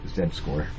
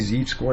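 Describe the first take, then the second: First: The letter Z is said as zed. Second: The letter Z is said as zee. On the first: "Z E D, Z E D. That's how you pronounce it anyway" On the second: "If you want to say z-score, that's fine"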